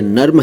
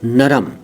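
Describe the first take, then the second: First: The r and m run together without a vowel. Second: A vowel is heard between r and m. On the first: The speaker calls it right. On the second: The speaker calls it wrong.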